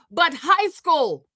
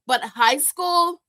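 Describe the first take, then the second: First: "But high school" stretched out slow; "high school" dragged out for weight; slow emphasis on high school. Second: "But high school" drawn out again, slow; "high school" drawn out with weight; slow emphasis on high school. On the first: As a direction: lean on "high school" like it settles everything. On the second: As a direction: repeat "high school" slowly as the punchline. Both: Real, not acted.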